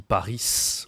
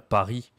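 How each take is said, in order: First: Paris said as "Pa-reess", final S clearly pronounced; Paris with S sounded. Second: Said in the usual way. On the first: Retold or imitated. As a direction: say Paris like a learner, voicing the final S. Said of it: "il prononce le S". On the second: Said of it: "tu ne dis pas le S".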